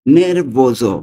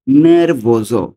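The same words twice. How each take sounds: The two takes are said the same way.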